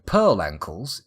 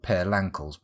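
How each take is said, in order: First: The L ends the first word, Pearl. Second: The L starts the second word, Lankles. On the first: The speaker calls it right. "the correct pronunciation" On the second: The speaker calls it wrong. "I thought it was called Pear Lankles, but of course that would make no sense"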